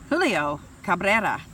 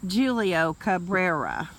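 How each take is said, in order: First: The name is said with a Spanish accent. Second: The name is said with an American English accent.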